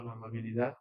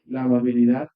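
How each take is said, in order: First: "la amabilidad" repeated much softer, rising gently; soft repetition. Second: "la amabilidad" said loud and rising, like a heading; emphatic announcement. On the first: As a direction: echo "la amabilidad" quietly to yourself. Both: Acted. Preacher repeats the key phrase.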